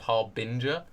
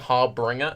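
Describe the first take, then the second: First: No extra R sound follows the b. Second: An extra R sound follows the b. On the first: The speaker calls it right. "instead of Harbinger" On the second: The speaker calls it wrong. "I've been saying Harbringer instead of Harbinger"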